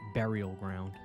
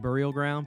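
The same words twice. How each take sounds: First: The title is said slowly. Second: The title is said quickly. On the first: "if I say it slow" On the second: "If I say it fast"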